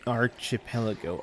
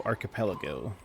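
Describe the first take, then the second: First: Archipelago said with ch as in chip, arch-ih-pelago; fumbled archipelago. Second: Archipelago said with a hard k, ar-kuh-pelago; archipelago with a hard k, the right way; corrected archipelago. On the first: Stumbles then corrects the word. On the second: Corrected pronunciation after stumble. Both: Real, not acted.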